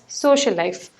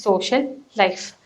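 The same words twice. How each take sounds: First: The two words are joined with one shared sound. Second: The two words are said separately with a break. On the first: The speaker calls it right. "You pronounce it as social life" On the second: The speaker calls it wrong. "You won't pronounce it as social life"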